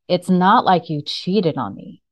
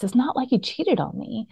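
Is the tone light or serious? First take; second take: serious; light. First: It is said in a serious tone. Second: It is said in a light, casual tone.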